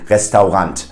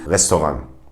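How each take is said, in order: First: It is pronounced with fully German sounds. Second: It is pronounced French-style with a German accent. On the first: The speaker calls it wrong. "try to pronounce it in a German way" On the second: The speaker calls it right. "pronounce it in a French way, but with a German accent"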